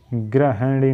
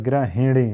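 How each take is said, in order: First: "गृहिणी" with an open he in the middle; wrong pronunciation demo. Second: "गृहिणी" with a short hi in the middle; correct pronunciation demo. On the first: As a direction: say "गृहिणी" as gra-heh-nee. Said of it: "नहीं होता है". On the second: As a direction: say "गृहिणी" as gra-hi-nee, lightly split. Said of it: "होता है". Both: Shown as a demonstration.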